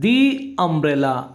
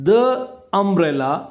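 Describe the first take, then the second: First: 'The' is said with a long 'dee' vowel. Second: 'The' is said with a short 'duh' vowel. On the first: "ದಿ" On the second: "ದ"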